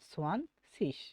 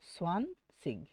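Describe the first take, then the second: First: The word ends with a soft s-like sound. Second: The word ends with a hard g sound. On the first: "সব সময় আপনারা সিসটা বলা ট্রাই করবেন" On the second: "আপনি যেটাই বলেন সেটাই সঠিক"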